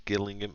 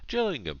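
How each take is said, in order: First: It begins with a hard G sound. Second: It begins with a soft J sound. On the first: "if you live there and I'm pronouncing it wrong" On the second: "my colleagues is called Jill, and that's how she spells her name, with a G"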